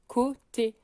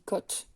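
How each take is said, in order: First: The word ends with a final 'ay' vowel. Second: The word ends without a final 'ay' vowel. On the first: The speaker calls it right. "il faut vraiment qu'il y ait le son et" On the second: The speaker calls it wrong. "si j'oublie le et, ça se dit cote"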